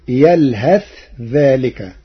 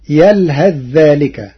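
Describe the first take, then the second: First: يلهث with a clear separate tha, yalhath dhālika; يلهث ذلك with no assimilation; Warsh reading. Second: يلهث ذلك merged, yalhadh-dhālika; يلهث with tha assimilated into dhal; Hafs reading. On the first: Teacher reciting Warsh's variant, slowly. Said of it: "بالإظهار وصلا". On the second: Teacher quoting the standard reading, recited. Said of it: "قرأ ورش كلمة يلهث". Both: Shown as a demonstration.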